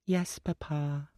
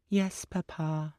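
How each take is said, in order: First: High, slow, meek; a little girl giving in; small girl voice. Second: High, slow, solemn; a little girl promising; small girl voice. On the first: Little girl answers her father, slow meek child voice. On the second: Little girl promises her father, slow solemn child voice. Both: A narrator's reading.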